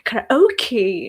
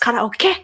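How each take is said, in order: First: It is said the English way, ending in 'kee'. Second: It is said the Japanese way, ending in 'ke'. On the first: The speaker calls it wrong. "but English speakers they say karaoke" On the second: The speaker calls it right. "The pronunciation, by the way, is officially karaoke. Ke. It's at the end"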